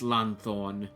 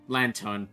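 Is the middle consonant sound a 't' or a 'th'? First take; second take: th; t. First: The middle consonant is a 'th' sound. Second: The middle consonant is a plain 't' sound. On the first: The speaker calls it wrong. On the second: The speaker calls it right.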